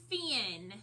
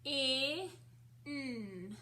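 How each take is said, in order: First: Said in the usual way. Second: "F-I-N" as separate sounds fff, short i, nnn, not letter names; sounded out. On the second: Shown as a demonstration. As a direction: stretch each sound of "F-I-N" with gaps between. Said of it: "I'm gonna write it in the air".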